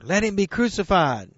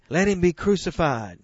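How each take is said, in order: First: A louder mob cry, pitched higher. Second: Raised cry of the mob; crowd crying out. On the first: Preacher voicing the crowd's louder cry. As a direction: push it harder, the crowd insisting. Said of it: "And they cried out louder". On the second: Preacher voicing the crowd's demand, raised. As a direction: call for the execution, firm and raised. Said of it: "And they all cried". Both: Acted.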